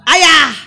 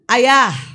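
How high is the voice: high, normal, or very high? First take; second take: very high; high. First: It is said at an extremely high pitch. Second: It is said at a clearly raised pitch. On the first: An exasperated call after being ignored twice. "langsung tujuh oktav" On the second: A repeated call after being ignored. "suaranya naik dua oktav"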